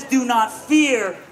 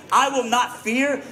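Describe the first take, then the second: First: "Do not fear" said slowly, each word weighted, falling on "fear"; preacher slowing right down on "Do not fear" before the comma; slow stressed quote. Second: Said in the usual way. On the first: Shown as a demonstration. Preacher spelling out God's command to the congregation, slow and weighted.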